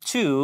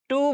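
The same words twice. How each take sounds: First: The t is released with a puff of air. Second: The t is plain, without a puff of air. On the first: The speaker calls it right. "টি এর উচ্চারণ ঠয়ের মতো হবে, আমরা বলবো টু" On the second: The speaker calls it wrong. "আমরা টু বলে থাকি, এটা টু না"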